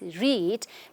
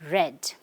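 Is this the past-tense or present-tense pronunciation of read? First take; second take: present; past. First: It uses the base-form, present-tense pronunciation. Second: It uses the changed, past-tense pronunciation. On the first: The verb is in its base form. "the base form, when the verb is read, we need to pronounce it as read" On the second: The verb is in the past tense. "We cannot re- pronounce it as read, but read"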